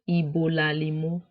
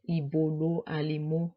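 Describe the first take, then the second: First: The final vowel drops and the words run together. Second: The two words are separated by a pause. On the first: "The last vowel falls off" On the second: "So you see there is a pause there"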